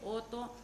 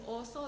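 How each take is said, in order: First: The middle consonant is a t sound. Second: The middle consonant is an s sound. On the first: The speaker calls it wrong. "dice oto" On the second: The speaker calls it right. "En vez de decir oso"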